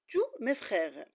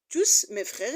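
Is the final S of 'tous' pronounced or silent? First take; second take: silent; pronounced. First: The final S of tous is silent. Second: The final S of tous is pronounced. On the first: The speaker calls it right. "mais on dit" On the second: The speaker calls it wrong. "on ne dit pas"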